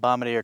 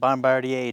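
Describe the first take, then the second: First: The name is said without the Canadian pronunciation. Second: The name is said with the Canadian pronunciation.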